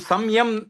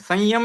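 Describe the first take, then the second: First: A clear m sound comes before the y. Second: A nasalized vowel comes before the y. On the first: The speaker calls it wrong. "हम संयम ऐसा नहीं बोलते हैं" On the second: The speaker calls it right. "संयम में भी अनुनासिक ही निकल रहा है"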